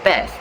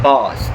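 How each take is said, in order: First: The vowel is short, open and front. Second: The vowel is long, open and back. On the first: "In American English, bath is pronounced as this" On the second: "In British English, bath is pronounced as this"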